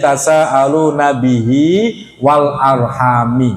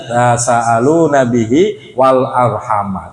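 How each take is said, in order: First: The last word ends with an 'i' vowel. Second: The last word ends with an 'a' vowel. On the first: The word is joined to the hidden pronoun in 'bihi'. "dibaca jar wal arhami" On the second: The word is read as an object. "itu qiraah kita dibaca nasab"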